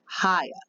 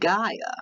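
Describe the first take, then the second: First: The word begins with an H sound. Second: The word begins with a hard G sound. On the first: "in some languages the G makes an H sound" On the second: "They pronounce it Gaia"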